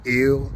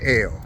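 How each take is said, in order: First: It is said like the word ill. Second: It is said like the letter L. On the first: "we pronounce it ill" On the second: "and L. I tend to pronounce it L"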